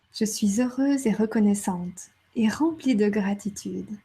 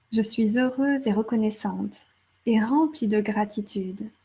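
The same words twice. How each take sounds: Both takes have the same delivery.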